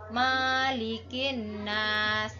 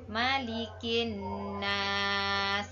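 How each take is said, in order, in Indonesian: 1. Vokal pertama 'ma' dibaca panjang. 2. Vokal pertama 'ma' dibaca pendek. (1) "membaca panjang huruf ma-nya" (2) "yang benar adalah malikin nas"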